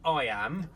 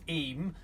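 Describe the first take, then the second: First: It is said as two syllables, like 'eye-am'. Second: It is said as one syllable, like 'eem'. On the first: The speaker calls it wrong. "not I am, which is how we start pronouncing it" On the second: The speaker calls it right. "That's pronounced Eam"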